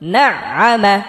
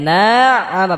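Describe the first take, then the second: First: The first vowel is kept short. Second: The first vowel is drawn out long. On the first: The speaker calls it right. "কারণ এটা হরকত।" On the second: The speaker calls it wrong. "এটাকে না আমা বলা যাবে না, না টান দেওয়া যাবে না"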